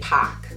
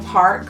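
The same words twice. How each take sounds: First: The R sound is dropped. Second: The R sound is clearly pronounced. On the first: "Rhode Islanders would say park" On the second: "words like park"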